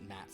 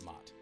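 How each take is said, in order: First: The vowel sounds like the one in cat. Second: The vowel sounds like the one in cot. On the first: "some people pronounce it Matt" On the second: "some people pronounce it Mott"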